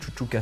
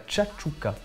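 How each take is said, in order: First: The word begins with a soft 'shoo' sound. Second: The word begins with a sharp 'cha' sound. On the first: The speaker calls it wrong. "en vrai ça ne se dit pas du tout chouchouka" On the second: The speaker calls it right. "c'est de la tchatchouka"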